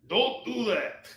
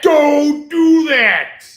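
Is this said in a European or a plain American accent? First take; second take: European; plain American. First: It is said in a put-on European accent. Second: It is said in a plain American accent.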